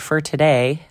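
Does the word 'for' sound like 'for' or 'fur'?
fur. The vowel in 'for' is a reduced 'er' sound. The speaker calls it wrong. "We say for today, like F-E-R"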